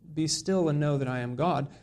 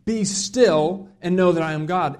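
First: It is said in a gentle, calm tone. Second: It is said in a stern, commanding tone. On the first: An invitation to reflect quietly and be comforted. The speaker calls it wrong. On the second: A rebuke telling opponents to stop resisting. The speaker calls it right. "to more, ... It's more like a sit down, shut up, listen up, I'm God"

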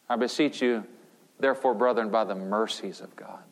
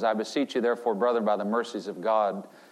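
First: The line is spoken slowly. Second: The line is spoken quickly. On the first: The speaker calls it right. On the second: The speaker calls it wrong.

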